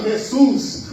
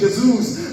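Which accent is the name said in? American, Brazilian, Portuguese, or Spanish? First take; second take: Spanish; Portuguese. First: It is said with a Spanish accent. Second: It is said quickly with a European Portuguese accent. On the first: "os espanhóis" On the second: "os portugueses dizem rapidinho"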